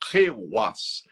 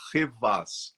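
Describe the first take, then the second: First: The middle consonant sounds like a w. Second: The middle consonant sounds like a v. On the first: This is the authentic pronunciation. The speaker calls it right. "mas a pronúncia é Rewas" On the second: It is said this way to make writing it easier. The speaker calls it wrong. "eu falei Revas para facilitar quem for escrever aí"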